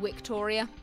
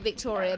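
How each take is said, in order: First: The name begins with a W sound. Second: The name begins with a V sound. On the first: The speaker calls it right. "but it's actually Victoria" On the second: The speaker calls it wrong. "it looks like Victoria"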